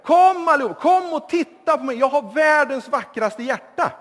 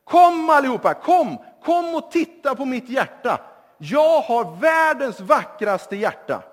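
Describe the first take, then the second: First: Loud, high boastful shout, louder still; young man, flattered, shouts louder to the crowd; shouting even louder. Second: Loud boastful call across the square, higher; a young man showing off, calling everyone over; calling the crowd loudly. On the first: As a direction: crow it to the whole square, even louder. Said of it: "Då ropar vi ännu högre". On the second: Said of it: "så ropar han så här". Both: Acted.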